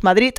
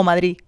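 First: First "Madrid" ends in T, like Madrit; final T. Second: Second "Madrid" ends on the vowel, Madrí; no final D. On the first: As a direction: stop the last D of "Madrid" as a T. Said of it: "si estás hablando y dices". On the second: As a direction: leave the last D off "Madrid". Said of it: "Sin la D directamente". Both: Shown as a demonstration.

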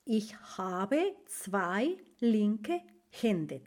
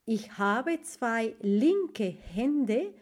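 First: Very slow, softer German idiom; teacher repeating the German idiom slowly; slow model phrase. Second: Very slow German idiom; teacher pacing out a German idiom; slow model phrase. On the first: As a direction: say it slowly and gently for learners. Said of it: "entonces se dice". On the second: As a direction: say it slowly for the class. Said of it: "en alemán se dice". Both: Shown as a demonstration.

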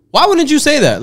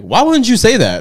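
First: Much higher, baffled question; incredulous cop. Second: High, slow, laughing cop asking why; laughing disbelief. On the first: Cops reacting to the non-alcoholic reveal, high incredulous. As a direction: throw it up high in disbelief. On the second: Cop laughing at the drunk guy, high and slow. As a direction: laugh through the question. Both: Retold or imitated.

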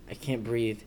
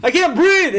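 First: Low, faint plea for help; retold quiet plea. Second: High, loud mock-panicked yell; retold hella loud cry. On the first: Man weakly trying to get his wife's attention, quiet retold plea. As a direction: softly imitate struggling to speak. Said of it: "I was saying it". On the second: Man waking himself from sleep paralysis, loud high yell. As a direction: yell it as if jolting awake. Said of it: "said it hella loud".

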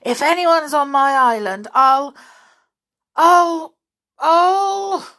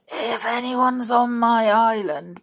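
First: Much louder and higher, spluttering; anger building into a choked cry; sputtering rage, "I'll" stuck and rising; furious. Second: Slow, stressed on "on", rising; tense start of a threat; angry threat held back; fierce and angry. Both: Acted. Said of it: "looking very fierce and angry".

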